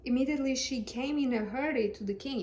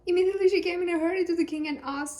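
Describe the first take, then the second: First: Said in the usual way. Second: Fast, louder, higher reading with passion; hurried reading. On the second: Shown as a demonstration. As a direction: rush it like she's running to the king. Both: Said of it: "gotta put some passion into it".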